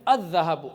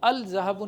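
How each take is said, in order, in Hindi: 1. आर्टिकल का 'l' साफ़ बोला जाता है। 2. आर्टिकल का 'l' साफ़ बोला जाता है।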